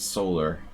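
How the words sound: It is said with an American pronunciation. "But in America, it's solar"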